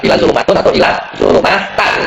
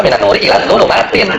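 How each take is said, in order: First: Slow, higher "zulumatun", then "zulumatan"; wrong -un, -an endings. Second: Slow, higher "minan nuri ilan zulumatin", ending in -tin; correct -in ending. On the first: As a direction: contrast the faulty endings -tun and -tan in "zulumatun", "zulumatan". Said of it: "Jadi nggak mungkin kita baca". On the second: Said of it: "Maka kita baca ini". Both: Shown as a demonstration.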